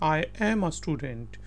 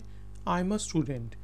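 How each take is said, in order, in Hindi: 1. इसे अलग-अलग पूरे 'I am' की तरह बोला जाता है। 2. इसे जल्दी में बोला जाता है, और यह संकुचित होकर 'I'm' बन जाता है।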